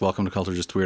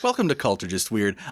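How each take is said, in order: First: It is said in a plain, flat way. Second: It is said in a lively, upbeat way.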